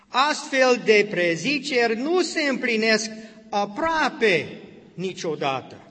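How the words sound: The word aproape is strongly emphasized.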